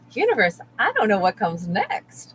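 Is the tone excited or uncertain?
excited. It sounds excited and powerful. Not knowing the future means anything is possible. The speaker calls it right.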